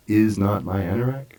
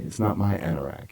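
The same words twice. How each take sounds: First: "is" lifted and stressed, not contracted. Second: Said in the usual way. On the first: Shown as a demonstration. Teacher modelling a stressed "is" for the class. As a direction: lean on "is" in "is not my anorak". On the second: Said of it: "We talked about this word".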